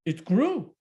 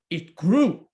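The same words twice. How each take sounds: First: Said in the usual way. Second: "grew" louder and punched; "It grew" said louder with a firm fall; emphatic refrain. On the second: A narrator's reading. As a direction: hit "grew" as the refrain builds. Repeated growth refrain, louder.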